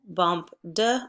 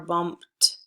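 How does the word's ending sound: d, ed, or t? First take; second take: d; t. First: The ending is a voiced d sound. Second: The ending is a voiceless t sound. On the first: The speaker calls it wrong. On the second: The speaker calls it right. "it's bumped"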